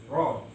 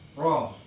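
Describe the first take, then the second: First: The r is trilled with two or three vibrations. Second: The r is trilled with two or three vibrations.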